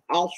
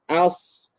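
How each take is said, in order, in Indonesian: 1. Bibir membulat dan dimajukan. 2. Bibir tetap datar, tidak dimajukan. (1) "als bersama dengan muncung" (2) "jaga ujung lidah, kemudian naikkan pangkal lidah"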